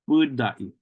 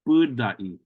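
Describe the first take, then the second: The two takes are said the same way.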